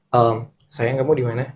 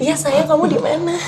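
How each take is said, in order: First: It is said in a male, flirtatious voice. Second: It is said in a put-on female voice.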